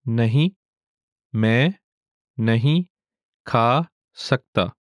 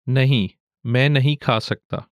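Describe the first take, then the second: First: It is said slowly. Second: It is said at normal speed.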